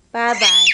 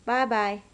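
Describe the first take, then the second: First: Bye-bye yelled out much louder; shouted bye-bye. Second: Said in the usual way. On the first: Shown as a demonstration. Toddler told to wave, Bye-bye shouted loud. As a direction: bark out Bye-bye at full volume. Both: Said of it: "You were saying bye-bye nicely".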